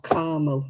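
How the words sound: It is said with an American pronunciation.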